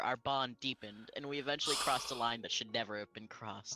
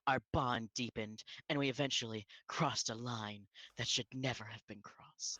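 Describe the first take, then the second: First: It is read in a plain, ordinary voice. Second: It is read in an exaggerated dramatic voice.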